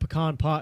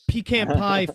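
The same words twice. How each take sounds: First: The stress in pecan is on the second syllable. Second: The stress in pecan is on the first syllable. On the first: The speaker calls it wrong. "puts all the emphasis at the back end" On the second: The speaker calls it right. "flows better for the way I speak"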